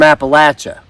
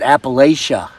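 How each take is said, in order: First: It is said the way locals say it. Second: It is said the way outsiders say it.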